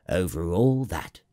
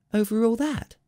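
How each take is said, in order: First: Assured, level-pitched royal confirmation; answering king. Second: Very high, incredulous rising question; asking little prince. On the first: King confirms his rule to the prince, assured. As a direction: confirm it with calm authority, falling at the end. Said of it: "the king answered". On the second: Little prince questions the king about the stars, incredulous. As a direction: ask in amazement, pitched way up. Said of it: "asked the little prince". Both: A narrator's reading.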